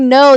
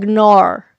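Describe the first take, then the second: First: Said in the usual way. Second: "nar" with an r-coloured ending for no; "nar", vowel twisted toward "nor"; Australian-style "nar". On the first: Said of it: "they don't say no". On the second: Shown as a demonstration. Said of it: "They say, like".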